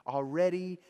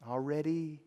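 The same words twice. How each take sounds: The two takes are said the same way.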